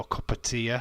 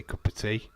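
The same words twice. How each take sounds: First: "cup of tea" with "tea" broken into tee-uh; Barnsley pronunciation. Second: Said in the usual way. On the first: Shown as a demonstration. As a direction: say "tea" as two beats, tee-uh, Barnsley style. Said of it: "Barnsley will go cup of tea". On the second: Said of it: "We say cup of tea".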